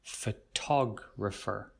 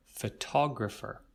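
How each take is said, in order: First: Photographer with TOG stressed, slow. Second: Photographer at normal pace, TOG stressed. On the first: Teacher modelling a word for students, slow. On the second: Teacher repeating the word at normal speed. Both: Shown as a demonstration. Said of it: "the tog sound".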